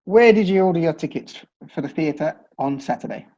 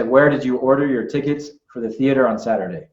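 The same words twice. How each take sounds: First: R's dropped, British style; British non-rhotic. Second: Every R sounded fully, American style. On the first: British teacher reading the sentence on request, R's dropped. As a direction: say it without the R's. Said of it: "How would you say that sentence?". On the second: American teacher demonstrating the sentence with full R's. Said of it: "I'm gonna say". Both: Shown as a demonstration.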